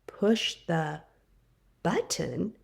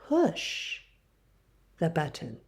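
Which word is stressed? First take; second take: button; push. First: The word button carries the emphasis. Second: The word push carries the emphasis. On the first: The focus is on which object to act on. "emphasizes the noun, the button" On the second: The focus is on what action to do. "places emphasis on the verb push"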